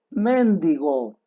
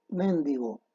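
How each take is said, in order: First: Mendigo said slowly, as the wrong form; acento incorrecto. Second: Mendigo said softly, the correct way; a quick, quiet mendigo as the fix; acento correcto. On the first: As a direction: stretch out Mendigo as the mistake. (Mendigo, lento, con la pronunciación incorrecta) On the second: (mendigo, suave, pronunciación correcta) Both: Shown as a demonstration. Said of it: "Lo correcto es mendigo".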